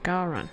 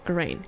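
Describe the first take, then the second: First: The second syllable sounds like 'ran'. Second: The second syllable sounds like 'rain'. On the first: The speaker calls it right. "Garan, not Garaine" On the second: The speaker calls it wrong. "not Garaine"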